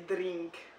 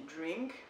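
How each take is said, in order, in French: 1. Le R est roulé, avec un trille. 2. Le R se dit simplement, il n'est pas roulé. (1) "ils roulent les R dans le fond. Donc, c'était drink" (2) "en anglais, ça se dit drink"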